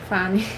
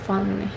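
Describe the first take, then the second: First: The name is said with an English vowel. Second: The name is said with a Hungarian vowel.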